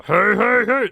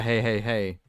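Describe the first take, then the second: First: "hey, hey, hey" boomed much louder and higher like Fat Albert. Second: Said in the usual way. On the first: Shown as a demonstration. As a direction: shout the cartoon catchphrase in character. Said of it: "Like the". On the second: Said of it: "they will use the".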